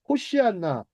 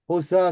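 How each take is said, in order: First: The middle of the word sounds like shi-an. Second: The middle of the word sounds like san. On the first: This is the original pronunciation. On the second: This is the familiar everyday form.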